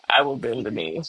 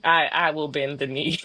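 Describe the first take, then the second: First: Laughing as she gives in to her friends. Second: Said in the usual way. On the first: Shown as a demonstration. Mock surrender, laughing. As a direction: say it through a laugh, giving in.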